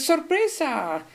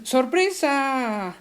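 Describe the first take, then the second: First: Sorpresa high and drawn out; exclaimed surprise. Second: Sorpresa stretched very slow, higher; exclaimed surprise. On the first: Teacher repeating the example, high surprise. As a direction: call out ¡sorpresa! with a lift. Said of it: "Cuando dices". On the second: Teacher showing an exclamation, drawn-out surprise. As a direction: draw out ¡sorpresa! in wonder. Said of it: "por ejemplo". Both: Shown as a demonstration.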